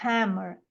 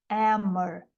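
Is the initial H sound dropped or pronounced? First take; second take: pronounced; dropped. First: The word starts with a breathy H sound. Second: The word starts without an H sound. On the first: "tem som de R" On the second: "no Cockney ele é um H não aspirado"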